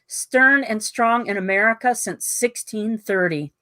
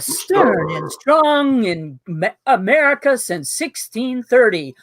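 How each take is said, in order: First: It is read in an ordinary reading voice. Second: It is read in a deep dramatic trailer voice.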